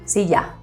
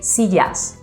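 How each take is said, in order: First: The final s is dropped. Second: The final s is clearly pronounced. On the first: "We say silla, which means a lot of sillas" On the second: "We don't say sillas"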